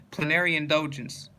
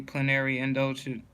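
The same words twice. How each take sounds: First: "indulgence" with the full -ence ending; corrected reading. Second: "indulgent" said where "indulgence" was meant; slip of the tongue. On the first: Reading the word list aloud, corrects himself with the right word. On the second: Reading the word list aloud, first take with the wrong word. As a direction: misread "indulgent" with a t ending. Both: Real, not acted.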